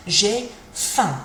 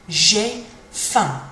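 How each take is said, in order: First: "J'ai faim" with a nasal "faim"; French model phrase. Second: "J'ai faim" finishing in the nose, closed with an um sound; nasal ending. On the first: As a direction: say "J'ai faim" ending in the nose. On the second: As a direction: let "faim" end in the nose. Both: Shown as a demonstration. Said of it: "Kind of finishes in your nose".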